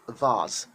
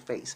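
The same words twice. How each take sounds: First: The word is said in a British way. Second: The word is said in a non-British way. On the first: The speaker calls it right. "British people call it vase" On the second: The speaker calls it wrong. "So British people don't call it vase"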